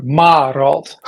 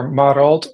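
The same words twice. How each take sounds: First: "Marald" with a long, stressed first syllable; second name variant. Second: "Marald" with a short, unstressed first vowel; first name variant. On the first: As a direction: lean on a drawn-out "Ma" in "Marald". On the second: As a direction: say "Marald" quickly, first syllable kept short. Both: Shown as a demonstration. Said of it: "two ways of pronouncing it".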